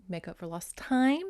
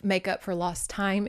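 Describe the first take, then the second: First: "time" lifted with a knowing rise; hint at a double meaning on "time"; suggestive. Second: Said in the usual way. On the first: Real, not acted. Repeats euphemism with a hint.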